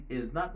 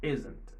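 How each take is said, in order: First: "is not" as two separate words; full form, not contracted. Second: "isn't" squeezed into one word; contracted form. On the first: Teacher shows the long form before the short one: "is not" said in full. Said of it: "Ou lye pou nan di is not". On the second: Teacher gives the short form after the long one: "isn't" as one word. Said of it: "ou di isn't". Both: Shown as a demonstration.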